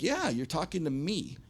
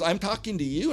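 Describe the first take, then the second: First: Retold firm answer, falling at the end; matter-of-fact confirmation. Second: Imitated disbelief, high rising question; high-pitched, questioning echo of what he heard; incredulous. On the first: Front man answers the doubting owner, confirming. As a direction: confirm it simply, pitch raised then falling. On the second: Venue owner to band's front man, incredulous.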